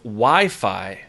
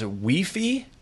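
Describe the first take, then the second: First: Pronounced the usual standard English way. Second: Pronounced the way some Latin American speakers say it. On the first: The speaker calls it right. "instead of Wi-Fi" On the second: The speaker calls it wrong. "Why do some Latin people say things like, I'm going to guess U I F I is Wi-Fi"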